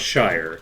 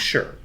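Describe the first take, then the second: First: The word is said with an 'eye' vowel. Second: The word is said with a short 'er' vowel. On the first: The word stands alone. "I think it's pronounced Shire" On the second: The word is part of a longer name. "as a component of anything, it's always sure"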